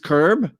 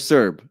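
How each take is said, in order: First: The word begins with a K sound. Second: The word begins with an S sound. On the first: "she insisted that Serb is actually pronounced curb" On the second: "Why is the C silent"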